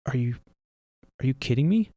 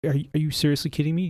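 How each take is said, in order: First: Stunned, halting disbelief. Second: Faster, pressing exasperation; rapid irritated repeat; exasperated. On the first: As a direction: ask it like you can't believe your eyes. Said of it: "I say". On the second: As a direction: push the question harder, fed up. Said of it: "I'm like". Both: Retold or imitated.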